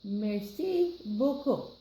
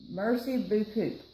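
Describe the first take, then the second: First: Slow "Merci beaucoup" closer to French, "mer-see boh-koh"; second, better try after coaching; corrected French. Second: "Merci beaucoup" said as "mer-see boo-koop" with an English r; a fumbled English-speaker "Merci beaucoup"; first wrong try at the French; mispronounced French. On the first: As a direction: copy the teacher's French carefully. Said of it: "Oui, très bien". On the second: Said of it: "No, not even close". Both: Shown as a demonstration.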